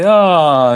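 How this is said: It is said as a tired yawn.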